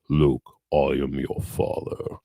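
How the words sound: It is said in a Darth Vader voice.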